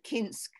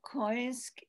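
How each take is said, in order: First: The name is said with a plain i vowel. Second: The name is said with an oi vowel.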